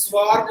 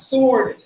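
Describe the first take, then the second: First: "Sword" as swaard, w and r sounded; wrong spelling pronunciation. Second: "Sword" as sawd, no w or r; silent letters. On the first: Teacher shows what not to say, spelling-pronunciation demonstration. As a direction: sound every letter in "Sword". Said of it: "Sword இல்ல". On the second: Teacher models don't sound the R, silent-letter demonstration. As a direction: drop w and r in "Sword". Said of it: "don't sound the letter R". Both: Shown as a demonstration.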